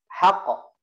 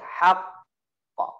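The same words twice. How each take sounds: First: The final consonant is short and quick. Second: The final consonant is held and pressed. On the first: The speaker calls it wrong. "Tidak boleh haqq" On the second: The speaker calls it right. "Kalau ada tasydid, baru dibacanya ditekan dulu"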